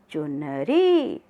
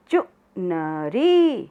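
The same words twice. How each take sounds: First: Said in the usual way. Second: चुनरी slowed right down, चु-न-री spaced out; syllable by syllable. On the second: Shown as a demonstration. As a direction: spell out चुनरी for the class. (चुनरी धीरे-धीरे अक्षर तोड़कर) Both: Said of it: "साथ साथ बोलेंगे सब".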